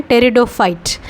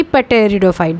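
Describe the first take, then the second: First: Pteridophyte said with a silent P, starting on T. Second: Pteridophyte with the P sounded, as "puh-teridophyte"; wrongly sounded P. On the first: Teacher showing students how to pronounce pteridophyte, silent P. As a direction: say pteridophyte as "teridophyte", slow and careful. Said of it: "पी silent होगा". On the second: Teacher warning students off a mispronounced pteridophyte, P sounded. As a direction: slowly voice the initial P in pteridophyte before the T. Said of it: "ना कि". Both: Shown as a demonstration.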